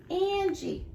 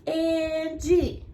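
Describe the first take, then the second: First: Said in the usual way. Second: "Angie" in two stretched, level beats; split into syllables. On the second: Shown as a demonstration. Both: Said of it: "Let's count your syllables".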